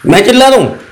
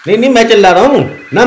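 First: Offended retort, falling at the end; मैं चिल्ला रहा हूँ asked in mock offence; indignant question. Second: Rattled off quickly, mocking; नहीं, नहीं, मैं चिल्ला रहा हूँ ना rushed and sarcastic; fast sarcastic denial. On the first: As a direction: throw the accusation back, stung. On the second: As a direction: fire back the denial at speed. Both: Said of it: "आप इतना चिल्ला क्यों रहे हैं".

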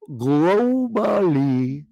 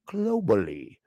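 First: "Globally" stretched very slow and louder, rising at the end; drawn-out emphasis. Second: Said in the usual way. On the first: Acted. Host hammers "Globally" at Elon, long and rising. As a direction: drag out "Globally" to hammer it home.

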